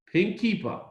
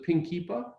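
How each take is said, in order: First: "Pink kippah" answered with a firm falling tune, higher start; agreeing fall. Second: Pink kippah asked with a rising question tune; asking rise. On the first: Boy accepts the rabbi's terms, settling fall. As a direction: accept it flatly, close the deal with a drop. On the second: Rabbi proposes to the boy what he'd wear, questioning rise. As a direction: offer "Pink kippah?" as a hopeful question, voice lifting at the end. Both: Retold or imitated.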